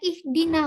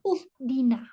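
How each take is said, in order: First: The word begins with an i vowel. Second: The word begins with a u vowel. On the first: The speaker calls it right. "harokat kasroh. Jadi saya baca ihdina" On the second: The speaker calls it wrong. "bukan juga"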